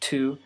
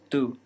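First: Aspirated T and the vowel ends in a glide. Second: Unaspirated T and a pure vowel without a glide. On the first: "in English it's to" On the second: "in Spanish it's tu"

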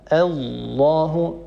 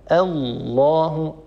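Both takes have the same delivery.

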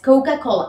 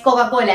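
First: The o vowels glide toward a u sound. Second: The o vowels are plain, without a glide. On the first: The speaker calls it right. "agregamos una U entre la vocal O y la consonante C" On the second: The speaker calls it wrong. "no es Coca-Cola"

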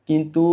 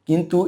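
The two takes are said the same way.

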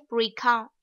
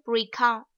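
First: The stress is on the second syllable. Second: The same.

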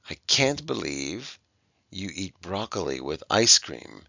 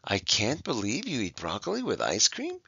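First: The voice falls at the end. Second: The voice rises at the end. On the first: The speaker is exclaiming in surprise. The speaker calls it right. "We are showing our surprise" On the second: The speaker is asking a question. The speaker calls it wrong. "If we have a question mark there, we'd have to read it like this"

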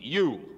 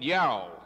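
First: The word is said with a vowel rhyming with too. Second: The word is said with a vowel rhyming with cow. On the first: The speaker calls it right. "understand how to pronounce the word E-W-E, you" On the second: The speaker calls it wrong. "I heard people calling it yow"

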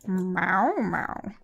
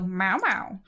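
First: It is said in a sultry way. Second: It is said to get someone's attention.

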